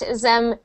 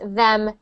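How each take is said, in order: First: The word begins with a z sound. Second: The word begins with a th sound. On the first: The speaker calls it wrong. "It's sounding like zat, zem" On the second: The speaker calls it right. "instead of that, them"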